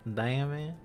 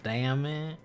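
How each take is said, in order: Both takes have the same delivery.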